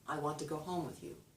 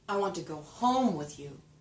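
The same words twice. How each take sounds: First: No word is stressed. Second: The word home is stressed.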